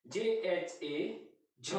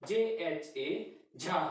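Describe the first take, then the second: First: J H A झ, ending on a short clipped झ; short a sound. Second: J H A झा, stretching the झा into a long aa; long aa sound. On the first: Teacher spelling out झ for students, short vowel. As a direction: say झ with a short a, slowly. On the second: Teacher contrasting झा for students, long vowel. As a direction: draw out झा slowly. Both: Shown as a demonstration. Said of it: "तो यहाँ पे देखिए".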